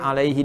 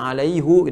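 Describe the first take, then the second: First: The last syllable ends with an 'i' vowel. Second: The last syllable ends with a 'u' vowel. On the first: This is the usual way the word is written. "alaihi dibaca alaihu" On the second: This is the special way the word is recited. "alaihi dibaca alaihu"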